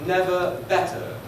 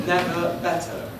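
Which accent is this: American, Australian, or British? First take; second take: British; British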